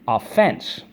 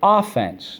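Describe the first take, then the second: First: The stress is on the second syllable. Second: The stress is on the first syllable. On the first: A crime or violation. "the accent is on the second syllable" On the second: Going on the attack. "Notice the accent is on the first syllable"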